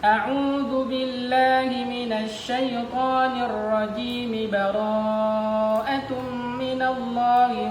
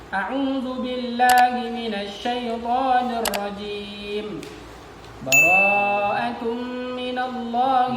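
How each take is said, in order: First: Rajim keeps its final vowel and flows on directly. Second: Rajim ends clipped, followed by a clear pause. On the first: "kalau kita sambung semua"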